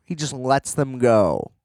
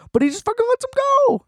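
First: Said in the usual way. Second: Squeaky, very high and fast burst of disbelief; venting at the movie, mocking a villain who just lets them go, in a squeaky high rush. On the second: Mocking the plot's easy escape.

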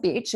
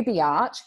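First: Said in the usual way. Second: "biatch" as two syllables, bee-atch; drawn-out biatch. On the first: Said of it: "It wasn't bitch". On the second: Shown as a demonstration. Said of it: "It wasn't bitch. It was you".

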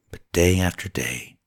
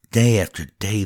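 First: "day after day" settling down, final "day" falling; falling refrain. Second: "Day after day" a touch louder, final "day" lifting up; rising refrain. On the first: Narrator lets the refrain fall, heavy with burden. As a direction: let "But day after day" sink heavily at the end. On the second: Narrator builds the repeated refrain upward, rising. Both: A narrator's reading.

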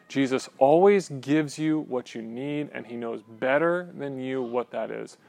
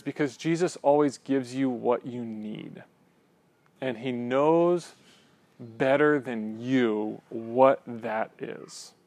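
First: Said in the usual way. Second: Slow quoted line. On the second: Retold or imitated. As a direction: read each word slowly and deliberately, lingering on it. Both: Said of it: "such a great quote".

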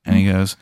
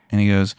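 The two takes are said the same way.

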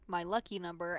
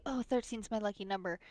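First: Said in the usual way. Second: Airy, mocking trendy-girl tone. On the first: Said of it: "that trendy". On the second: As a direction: tease the cliché lightly. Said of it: "like, that trendy".

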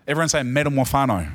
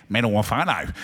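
First: "metamorphano" said briskly, five syllables, for all to repeat; leading the congregation. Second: "Metamorphano" said again through a chuckle; laughing repeat. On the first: Pastor leads the church in repeating the word metamorphano. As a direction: call out "metamorphano" as a cue for the room. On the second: Pastor echoes the congregation's Aussie-accented metamorphano, laughing. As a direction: laugh as you echo "Metamorphano" back. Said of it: "Aussie twang to it". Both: Shown as a demonstration.

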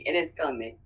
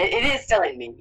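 First: Softer, lower, confiding; hushed confession. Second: Said in the usual way. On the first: Real, not acted. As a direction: admit it quietly, like a secret.

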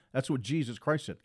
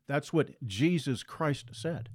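First: Said in the usual way. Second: "That's what Jesus Christ said" said slowly, leaning on "what"; slow it right down and lean on "what"; slow emphasis. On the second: Shown as a demonstration. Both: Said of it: "repeated, slowed third time".

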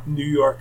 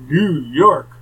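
First: Said in the usual way. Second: Louder, drawn-out disbelieving question; incredulous echo. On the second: Retold or imitated. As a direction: echo it back in mock disbelief. Mimics her reaction to New York.

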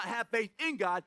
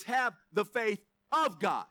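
First: "in" stressed in "have faith in God". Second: "of" stressed in "the faith of God", drawn out; slow down and land on "of". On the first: Preacher correcting a translation, stress on "in". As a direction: lean on "in" as the word to reject. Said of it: "it's not". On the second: Preacher giving the original wording, stress on "of". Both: Shown as a demonstration.

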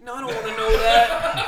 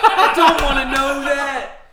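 First: Laughing, slower, higher; laughing protest. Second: Higher, louder, slow laughing plea. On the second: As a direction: crack up while begging. Repeats louder through laughter. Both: Real, not acted.

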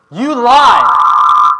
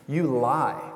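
First: High, full-out scream; screamed accusation. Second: Raised, punchy accusation, short of a scream; toned-down yell. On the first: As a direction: scream it as a grief-stricken boy refusing bad news. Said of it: "I don't wanna be too loud". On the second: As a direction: call it out loudly as a mock outburst. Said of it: "probably even louder than that". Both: Acted.

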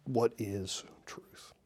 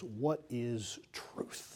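First: Whispered slowly, no voice at all; a slow whispered echo. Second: Slow, soft and pondering, the words stretched out; a hushed, drawn-out question; slow musing. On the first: Shown as a demonstration. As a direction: breathe the question out as a whisper. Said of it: "repeats the quote to let it sink in". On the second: Acted. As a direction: let Pilate's question hang, slow and quiet. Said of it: "said to him those famous words".

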